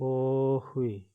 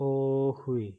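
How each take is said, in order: The two takes are said the same way.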